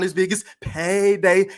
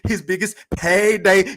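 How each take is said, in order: First: It is said in his own normal voice. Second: It is said in an imitated Mexican accent.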